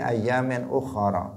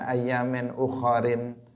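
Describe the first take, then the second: First: The last word ends with a plain 'a' vowel. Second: The last word ends with a nasal 'in' ending. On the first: The speaker calls it right. "tetapi ayamin ukhara" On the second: The speaker calls it wrong. "bukan ayamin ukharin"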